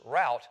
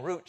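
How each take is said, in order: First: "route" said as "rowt"; rhymes with about. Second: "Route" said as "root"; rhymes with boot. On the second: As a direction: say "Route" with a long oo, rhyming with "boot". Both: Shown as a demonstration. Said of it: "you can switch from one".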